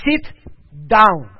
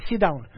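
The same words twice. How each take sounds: First: "Sit ... down" with a pause, "down" much louder; firm insistent command. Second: Said in the usual way. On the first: Acted. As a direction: cut him off and insist. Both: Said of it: "And he says".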